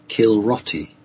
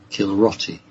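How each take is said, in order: First: The name is pronounced as Kilroti. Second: The name is pronounced as Kilroti.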